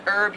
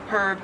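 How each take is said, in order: First: "herb" said with a silent H, as "erb"; American pronunciation. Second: "herb" with the H sounded; Australian pronunciation. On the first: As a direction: drop the H off "herb". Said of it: "you just don't pronounce the H". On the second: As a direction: breathe a clear H at the start of "herb". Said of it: "you do pronounce the H". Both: Shown as a demonstration.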